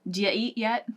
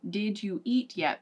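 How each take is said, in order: First: The words are run together and reduced. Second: Each word is said clearly and separately. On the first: "But we'll actually say" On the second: "we will say"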